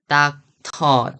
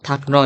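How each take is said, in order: First: The middle consonant is a clear t sound. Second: The middle consonant is a soft r-like flap.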